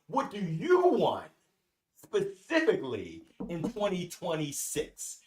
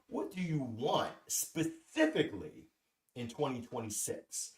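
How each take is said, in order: First: The question is spoken noticeably louder. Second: The question is spoken at normal volume.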